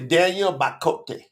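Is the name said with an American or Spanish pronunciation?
Spanish. The name is pronounced the Spanish way. "If I'm in Spanish"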